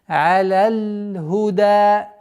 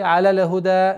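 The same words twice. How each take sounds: First: The phrase is said carefully. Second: The phrase is said hurriedly. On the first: The speaker calls it right. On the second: The speaker calls it wrong.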